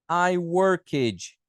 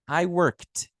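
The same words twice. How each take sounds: First: The ending of worked is not a T. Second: The ending of worked is a plain T. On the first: The speaker calls it wrong. "Você não vai falar I worked" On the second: The speaker calls it right. "Não, I worked"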